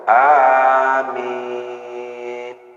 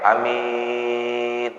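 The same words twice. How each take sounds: First: The first vowel is drawn out long. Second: The first vowel is short. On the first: "panjang ya" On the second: "hanya pendek"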